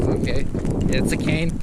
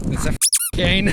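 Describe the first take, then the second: First: Said in the usual way. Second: High insisting. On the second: Retold or imitated. Insisting to the cop, higher.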